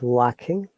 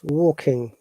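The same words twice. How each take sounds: First: The vowel after W sounds like 'wa'. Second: The vowel after W sounds like 'o'. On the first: The speaker calls it wrong. "not W A sound" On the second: The speaker calls it right. "W A always O sound"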